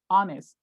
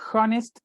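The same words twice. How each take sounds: First: The h at the start is silent. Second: The h at the start is pronounced. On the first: The speaker calls it right. "the H doesn't sound" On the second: The speaker calls it wrong. "Don't say honest, it's not correct"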